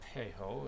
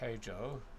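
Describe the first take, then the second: First: The J is sounded like an H. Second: The J is sounded like an English J. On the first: The speaker calls it right. "I think it's Pejo" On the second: The speaker calls it wrong. "instead of Pejo"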